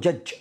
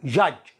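First: "judge" with the d sounded; wrong pronunciation. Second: "Judge" with a silent d; correct pronunciation. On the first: Teacher warning learners off a mistake, "judge" with an audible d. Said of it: "لا تقول". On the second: Teacher modelling for learners, "Judge" with the d dropped. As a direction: say "Judge" with no separate d. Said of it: "وليس الدي هنا لا ينطق". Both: Shown as a demonstration.

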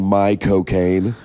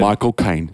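First: "my cocaine" said slowly, like Michael Caine; slow, drawn-out "my cocaine". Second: "Michael Caine" said normally; plain "Michael Caine". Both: Shown as a demonstration. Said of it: "you're really just saying".

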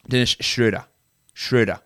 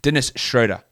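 First: Dennis Schroeder with the vowel shifted toward "Shroo"; second go at Schroeder, closer to "oo"; careful German name. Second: Dennis Schroeder, the vowel rounded toward "Shroh"; careful German name. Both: Shown as a demonstration. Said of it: "I'm trying to do it right".

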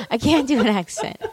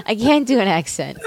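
First: A laughing try at an Australian accent, barely there; half-hearted Australian twang through a laugh; laughing Australian attempt. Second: Said in the usual way. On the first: Shown as a demonstration. Host laughs through a failed Australian accent.

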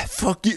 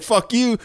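First: "Fuck you." said tired and a bit softer after a sigh, no bite; imitating a tired, deflated "Fuck you"; weary fuck you. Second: Mock fuck you. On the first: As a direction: drop the heat, deliver "Fuck you" worn out. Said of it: "but it was like". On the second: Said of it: "or, like".

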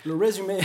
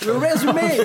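First: Said in the usual way. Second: Résumé shouted high, stretched and loud; exaggerated résumé. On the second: Shown as a demonstration. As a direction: belt out résumé, much higher and louder. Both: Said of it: "il va nous lire le résumé".

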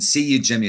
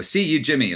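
First: Said in the usual way. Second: Glasgow "see you, Jimmy". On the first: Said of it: "is a thing that's a sort of a". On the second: Retold or imitated. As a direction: toss off "See you, Jimmy" like a jokey Glaswegian. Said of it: "You go".

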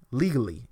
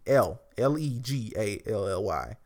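First: Legally, said again on its own, firmly; repeated for emphasis. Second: L E G A L L Y spelled letter by letter; each letter of L E G A L L Y said apart. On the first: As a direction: land on Legally, as a deliberate echo. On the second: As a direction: spell out legally one letter at a time. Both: Shown as a demonstration.

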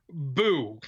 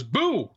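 First: Understated, deadpan mock scare; unamused boo. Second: Mild boo with a quick pitch swoop; a playful, half-hearted attempt to startle; lightly acted jump-scare. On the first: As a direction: give back the scare with little effort. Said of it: "walks away unamused". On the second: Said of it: "jumps out wearing a dog mask and goes".

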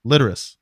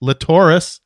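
First: Litteris with LIT stressed, falling away; stress on first syllable. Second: Latoris with the middle TOR stressed; stress on second syllable. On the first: Co-host showing his own reading of the name, Litteris stressed on LIT. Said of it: "I said it's Mike Litteris". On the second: Co-host showing the other inflection of the name, Latoris stressed on TOR. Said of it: "this other inflection in the name". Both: Shown as a demonstration.

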